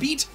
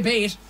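First: The vowel is a long 'ee' sound. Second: The vowel is an 'ay' sound. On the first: "instead of saying beat" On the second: "Irish people, ... you say bait"

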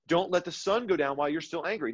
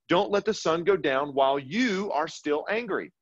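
First: No special stress falls on you. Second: The stress is on the word you.

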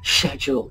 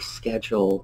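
First: It is said with a British pronunciation. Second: It is said with an American pronunciation.

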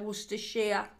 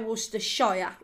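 First: The last syllable is said the local way. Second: The last syllable is said the non-local way. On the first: The speaker calls it right. "We say Worcestershire. That's how you pronounce it" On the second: The speaker calls it wrong. "We don't say Worcestershire"

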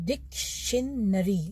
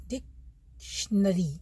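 The two takes are said the same way.

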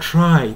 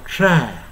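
First: The vowel glides as a diphthong. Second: The vowel is one flat, long vowel. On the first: This is the usual everyday pronunciation. "普段はtry とI と発音してる" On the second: This is how it is said when held long in singing. "try になってA のように発音する"

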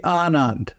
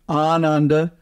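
First: The word ends on a consonant, no final vowel. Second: The word ends with a final a vowel. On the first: This is the Hindi form. "the final A is usually left off of words" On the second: This is the Sanskrit form. "instead of Ananda"

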